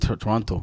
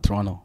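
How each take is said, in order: First: The final t sound is clearly pronounced. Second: The final t sound is dropped. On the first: This is how a non-Canadian says it. "I like how you pronounce it Toronto" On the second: This is how local Canadians say it. "not Toronto"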